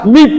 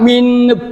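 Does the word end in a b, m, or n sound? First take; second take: b; n. First: The word ends in a b sound. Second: The word ends in an n sound. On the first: "tidak dibaca mib" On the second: "tidak dibaca min"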